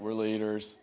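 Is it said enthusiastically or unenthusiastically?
unenthusiastically. It is said flatly, without enthusiasm.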